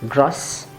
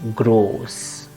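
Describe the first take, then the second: First: The vowel is cut short. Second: The vowel is held long. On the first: The speaker calls it wrong. "It's not gross" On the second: The speaker calls it right. "the O should be pronounced long"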